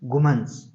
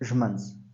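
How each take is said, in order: First: The word starts with a g sound. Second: The word starts with a zh sound. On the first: This is the Yusufzai dialect form. "Yousafzai ... वो गाफ प्रोनाउंस करते हैं" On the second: This is the Kandahari dialect form. "Kandhari लोग ... वो ये ही प्रोनाउंस करते हैं"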